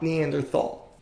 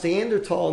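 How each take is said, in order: First: The last syllable starts with a th sound. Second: The last syllable starts with a plain t sound. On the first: The speaker calls it wrong. "not Neanderthal" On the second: The speaker calls it right. "It is pronounced Neanderthal, with the T-A-L"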